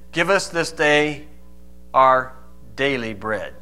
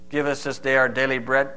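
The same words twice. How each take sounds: First: It is said with normal expression. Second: It is said in a flat monotone.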